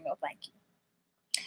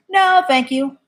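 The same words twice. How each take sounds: First: Drawn-out, much softer no thank you; slow hushed refusal. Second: Said in the usual way. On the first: Real, not acted. Refusing to go back to her channel, slow hushed no. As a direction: breathe the refusal out slowly, dismissively.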